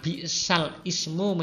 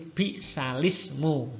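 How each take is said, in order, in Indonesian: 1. Hamzah terdengar sebelum ismu. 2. Tidak ada hamzah; l langsung menyambung ke ismu. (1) "Yang semula"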